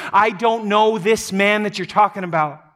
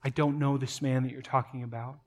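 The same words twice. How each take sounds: First: Raised, forceful, pitched up; dramatic emphatic outburst; loud cursing denial. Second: Softer, lower, reflective recall; hushed remembered words; quiet echo. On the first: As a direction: shout him down emphatically. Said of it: "he calls down loud curses on himself". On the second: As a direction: let it land as a haunting memory. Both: Acted.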